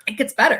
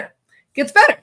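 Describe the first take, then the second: First: Said in the usual way. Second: Pitched up higher and louder; eager build-up before the best part; excited tease. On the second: Shown as a demonstration. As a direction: hype it up, bursting to tell the rest.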